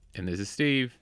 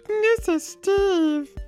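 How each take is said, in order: First: It is said in his normal voice. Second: It is said in a high, squeaky voice.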